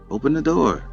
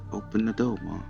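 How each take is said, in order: First: It is said at a normal, clear pace. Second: It is said slowly and sluggishly.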